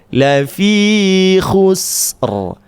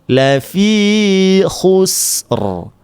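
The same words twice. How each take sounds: Both takes have the same delivery.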